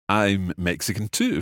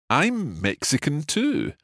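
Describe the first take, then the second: First: It is said a little faster. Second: It is said at a normal pace.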